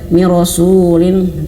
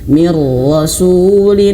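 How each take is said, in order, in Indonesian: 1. Huruf r dilewati dengan cepat tanpa getaran. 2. Huruf r tebal dengan getaran sedikit. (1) "hanya sekedar uh, lewat saja" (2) "takrir, ada getaran sedikit"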